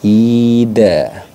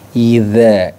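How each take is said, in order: First: The middle consonant is a plain d. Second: The middle consonant is a dh sound. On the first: The speaker calls it wrong. "mengucapkan dengan ida tanpa ada titiknya" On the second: The speaker calls it right. "ujung lidah ya, bertemu dengan ujung gigi seri atas"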